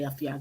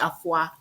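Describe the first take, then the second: First: The name is said as afia. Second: The name is said as afua. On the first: This is how the newer generation says it. "but my parents say say afia. They're they're newer" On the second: This is how older people say it. "The older generation, like the uh, the old school people, they say afua"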